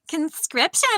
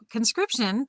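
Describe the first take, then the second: First: A put-on TikTok text-to-speech voice is used. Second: A made-up robotic announcer voice is used. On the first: "I could have read it like her" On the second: "That was my um A I voice that I just made up"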